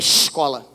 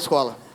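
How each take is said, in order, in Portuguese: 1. É pronunciada com sotaque carioca. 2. É pronunciada com sotaque sulista, todos os sons bem claros. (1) "o carioca fala isso aqui assim" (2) "vocês falam todos os fonemas"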